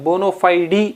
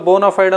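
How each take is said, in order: First: The word ends with an added ee vowel. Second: The word ends on a final d consonant. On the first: The speaker calls it right. "యాక్చువల్గా బోనోఫైడీ అని పలకాలి" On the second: The speaker calls it wrong. "That is wrong అండి"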